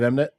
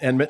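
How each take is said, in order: First: The m sound comes before the n. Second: The n sound comes before the m. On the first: The speaker calls it right. "instead of Emnet" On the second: The speaker calls it wrong. "you were pronouncing it Enmit"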